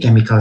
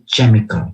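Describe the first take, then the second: First: The word begins with a k sound. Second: The word begins with a ch sound. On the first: The speaker calls it right. "hati-hati bacanya begini" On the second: The speaker calls it wrong. "Seringkali mahasiswa bacanya begini"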